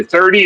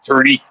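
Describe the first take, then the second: First: Said in the usual way. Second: "thirty" said as "tirty" in a Newfie accent; Newfoundland accent, hard t for th in thirty. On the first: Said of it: "the Newfie accent is the best". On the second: Shown as a demonstration. Showing friends how Newfies say it, Newfie "tirty". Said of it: "missing letters in the middle of words".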